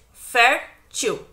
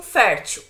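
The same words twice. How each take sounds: First: "fértil" split into fér, til with a pause between; syllable by syllable. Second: Said in the usual way. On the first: Shown as a demonstration. Teacher repeating the exercise on another word, syllable by syllable. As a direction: break "fértil" into two separate syllables. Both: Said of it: "A mesma coisa com fértil".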